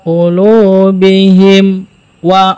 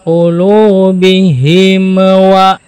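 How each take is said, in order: First: The m is held with a short pause. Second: The m ends with a bouncing release. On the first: "Atau tertahan. ... ada saktah" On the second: "Atau memantul ya"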